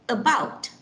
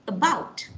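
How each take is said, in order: Both takes have the same delivery.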